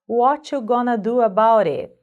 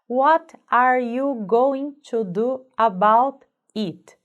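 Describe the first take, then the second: First: Words are reduced and run together. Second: Every word is said fully and separately.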